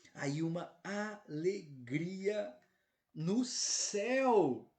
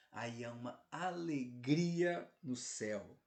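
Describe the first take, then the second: First: Very slow, building to a loud, high "céu"; exultant proclamation. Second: Slow, measured build on "alegria"; drawn-out proclamation. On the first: Preacher repeating heaven's joy to the flock, exultant cry. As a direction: draw out every word and swell into a ringing cry. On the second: Preacher telling the flock of heaven's joy, slow proclamation. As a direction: stretch "alegria", then settle on "no céu". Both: Real, not acted.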